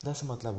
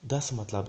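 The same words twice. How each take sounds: The two takes are said the same way.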